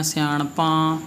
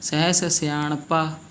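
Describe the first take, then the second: First: ਸਿਆਣਪਾਂ with nasalised final aan; nasal ending mistake. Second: Slow ਸਿਆਣਪਾ ending in pure aa; no nasal ending. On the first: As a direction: let the end of ਸਿਆਣਪਾਂ go into the nose. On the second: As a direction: keep the last aa of ਸਿਆਣਪਾ oral. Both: Shown as a demonstration. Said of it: "ਇਹ ਵੀ ਗਲਤੀ ਹੈ".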